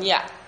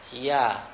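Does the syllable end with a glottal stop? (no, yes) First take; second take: yes; no. First: The syllable ends with a glottal stop. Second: The syllable ends openly without a glottal stop. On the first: The speaker calls it wrong. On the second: The speaker calls it right.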